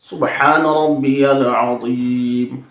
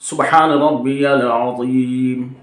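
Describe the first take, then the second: No difference in how they are said.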